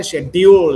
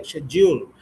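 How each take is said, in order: First: "schedule" said shed-dee-ool, louder; "schedule" with a d-y glide instead of j; local dyool pronunciation. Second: "schedule" said shed-jool with a J; "schedule" with a j sound in the middle; British jool pronunciation. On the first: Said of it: "They don't say schedule like us". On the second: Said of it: "they say schedule". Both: Shown as a demonstration.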